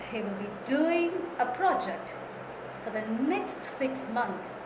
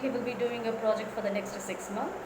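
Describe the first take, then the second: First: It is lively, stressing doing, project and for the next. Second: It is said flatly, without any stressed words. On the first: The listener wants to continue the conversation. The speaker calls it right. "I'm giving stress to ing verb and also project, and I'm emphasizing for the next" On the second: The listener loses interest. The speaker calls it wrong. "it has no life, it has no stress"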